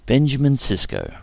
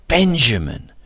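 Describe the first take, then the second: First: Said in the usual way. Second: Loud, high cry of Benjamin; greeting an old friend, crying out Benjamin; joyful cry. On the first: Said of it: "Benjamin Sisko smiled". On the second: A narrator's reading. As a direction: call out Benjamin in glad shock. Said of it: "cried Dax".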